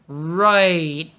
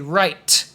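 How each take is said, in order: First: The final T is stopped with no air released. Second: The final T is released with a puff of air. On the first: The speaker calls it right. "it's kind of like a stop. You stop the air" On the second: The speaker calls it wrong. "some students will do it a lot and say right"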